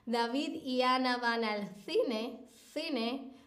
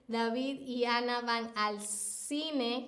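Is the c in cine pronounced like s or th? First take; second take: th; s. First: The c in cine sounds like th. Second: The c in cine sounds like s. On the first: "La otra variante sería" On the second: "aquí estoy pronunciando David y Ana van al cine como si fuese una S"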